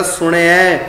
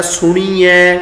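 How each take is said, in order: First: ਸੁਣਿਆ said sun-i-ai, very light i; barely touch the i in ਸੁਣਿਆ; light short i. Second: ਸੁਣੀਐ said su-nee-ai; long ee mistake. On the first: Teacher models the right reading, ਸੁਣਿਆ with short i. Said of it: "ਇੱਥੇ ਪਾਠ ਹੋਏਗਾ". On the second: Teacher shows our wrong reading, ਸੁਣੀਐ with long ee. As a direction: lengthen the middle ee of ਸੁਣੀਐ. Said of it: "ਕੀ ਗਲਤ ਉਚਾਰਨ ਕਰਦੇ ਹਾਂ". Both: Shown as a demonstration.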